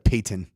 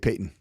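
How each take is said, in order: First: The middle T is clearly pronounced. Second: The middle T is dropped. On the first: The speaker calls it right. "instead of" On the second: The speaker calls it wrong. "a lot of people say"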